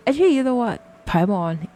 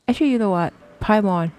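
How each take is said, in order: Both takes have the same delivery.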